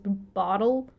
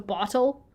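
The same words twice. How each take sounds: First: The middle consonant sounds like a soft D. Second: The middle consonant sounds like a clear T. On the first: "sounds like it has a D instead of T's" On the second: "as opposed to"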